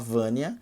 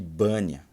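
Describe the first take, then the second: First: The name begins with a V sound. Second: The name begins with a B sound. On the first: "Minha irmã chama Vânia" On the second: "o japonês chamava ela de Bânia"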